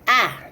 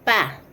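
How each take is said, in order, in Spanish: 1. La consonante tiene un corte glotal marcado. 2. La consonante es simple, sin aire extra.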